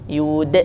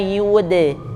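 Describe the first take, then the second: First: The final d ends with a catch in the throat. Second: The final d ends with a light bounce. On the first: The speaker calls it wrong. "tidak ditambah" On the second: The speaker calls it right. "Bunyinya wa ma yud"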